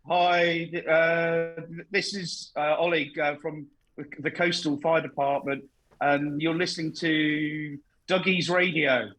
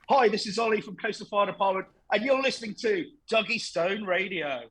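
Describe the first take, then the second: First: It is said haltingly with stammers. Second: It is said fluently with energy.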